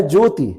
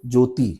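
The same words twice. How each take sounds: First: ज्योति with a short final इ; correct short vowel. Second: ज्योति with a long final ई; common mispronunciation. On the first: Teacher giving the proper name, correct pronunciation demo. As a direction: keep the last i of ज्योति short. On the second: Teacher showing how people say it, mispronunciation demo. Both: Shown as a demonstration. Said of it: "लेकिन इसको बोलते क्या हैं लोग?".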